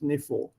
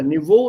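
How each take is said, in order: First: The middle consonant is an f sound. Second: The middle consonant is a v sound. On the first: The word is adapted to German. "If you Germanize it, it becomes Nefo" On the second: The word keeps its foreign form. "Niveau is non-German, it's a foreign word, so you use it as it is"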